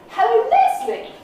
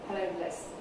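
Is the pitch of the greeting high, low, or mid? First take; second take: high; low. First: The greeting is said at a high pitch. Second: The greeting is said at a low pitch. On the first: "which is really high" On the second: "It's very low key"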